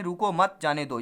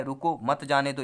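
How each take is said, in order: First: रुको मत run together, then जाने दो; pause after मत. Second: Brief break after रुको, then मत जाने दो; pause after रुको. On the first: Teacher recaps the second meaning, pausing after मत. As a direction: put the brief break after मत. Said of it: "अगर आप यहाँ पे लगा देते हैं". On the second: Teacher recaps the first meaning, pausing after रुको. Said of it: "यहाँ पर अगर विराम लगाते हैं". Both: Shown as a demonstration.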